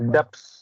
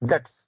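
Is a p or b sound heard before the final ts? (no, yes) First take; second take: yes; no. First: A p-like sound is heard before the ending. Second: No p-like sound is heard before the ending. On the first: The speaker calls it wrong. "Generally what you pronounce? డెప్స్ అని pronounce చేస్తారు" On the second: The speaker calls it right. "Correct pronunciation is డెట్స్. బి is silent"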